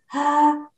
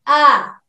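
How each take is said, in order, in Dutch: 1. De klinker begint luchtig, met ademruis. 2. De klinker begint stevig en vast. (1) "als ze open zijn, maak je altijd een klank met lucht" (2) "Als ze dicht zijn, dan maak je een stevige klank"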